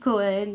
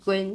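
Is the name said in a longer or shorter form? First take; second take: longer; shorter. First: The name is said in its full, longer form. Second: The name is said in a clipped, shorter form. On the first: The speaker calls it right. "ça se dit Cohen" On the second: The speaker calls it wrong. "c'est plus court quand tu dis Cohen"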